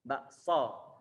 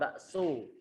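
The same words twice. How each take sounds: First: The final vowel is said without rounding the lips. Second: The final vowel is said with rounded, pushed-out lips. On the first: The speaker calls it right. "seperti kata bakso" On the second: The speaker calls it wrong. "bukan bakso"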